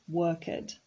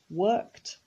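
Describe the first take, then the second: First: The ending is an added extra syllable. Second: The ending is a short t sound. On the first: The speaker calls it wrong. "not worked" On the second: The speaker calls it right. "it is pronounced worked"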